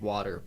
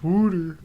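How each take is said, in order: First: The first vowel sounds like 'aw'. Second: The first vowel sounds like 'oo'. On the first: It is the ordinary everyday way of speaking. "I'm normal" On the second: It marks a Pennsylvania way of speaking. "that's like a deep Pennsylvania thing"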